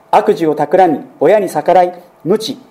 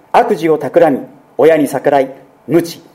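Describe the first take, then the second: No difference in how they are said.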